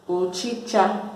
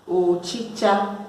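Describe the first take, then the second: No difference in how they are said.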